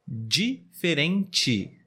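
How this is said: The final syllable sounds like 'tchi'. This is how it is said in the Rio de Janeiro region. "aqui na região sudeste, no estado do Rio de Janeiro, normalmente falamos assim"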